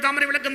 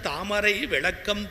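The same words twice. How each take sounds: First: It is rattled off very fast. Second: It is recited slowly and with feeling. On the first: The reciter only wants to get it memorized and over with. The speaker calls it wrong. "அதை அவ்வளவு வேகமாக சொல்லி முடிப்பான்" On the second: The reciter enjoys the poem. The speaker calls it right. "ஏன் அப்படி ரசித்து படித்தோம்"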